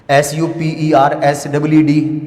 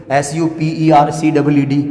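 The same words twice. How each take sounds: First: Slow letter by letter, "एस double E D" clearly marked; correct spelling, slow. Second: Letter by letter, "सी double E D" as the mistake; wrong spelling spelt out. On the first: Teacher dictating the correct spelling slowly to students. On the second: Teacher spelling out the wrong version for students. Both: Shown as a demonstration. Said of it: "wrong spelling है".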